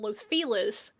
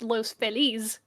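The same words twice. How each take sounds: First: The name is said with English-style sounds. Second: The name is said with Spanish-style sounds. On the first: This is how locals say it. "the city that locals call Los Feliz" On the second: This is how a Spanish speaker would say it. "is not pronounced Los Feliz"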